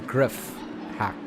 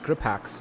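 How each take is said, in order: First: The name is said with an f sound. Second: The name is said with a p sound. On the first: The speaker calls it wrong. "as opposed to griff hack" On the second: The speaker calls it right. "to me it's it's grip hacks"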